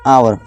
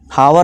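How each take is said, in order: First: The word starts with a vowel sound. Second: The word starts with an h sound. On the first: The speaker calls it right. "इसे आवर पढ़ेंगे" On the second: The speaker calls it wrong. "हावर नहीं"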